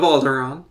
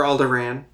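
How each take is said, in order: First: "Alderaan" ending in a long "ahn". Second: "Alderaan" ending like "ran"; short A as in "cat" ending "Alderaan"; ANN ending. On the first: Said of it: "or Alderaan, depending on your". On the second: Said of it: "depending on your". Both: Shown as a demonstration.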